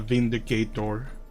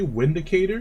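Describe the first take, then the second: First: The word begins with a V sound. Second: The word begins with a W sound. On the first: The speaker calls it right. "Pronounced with a V" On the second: The speaker calls it wrong. "Is that how you pronounce it?"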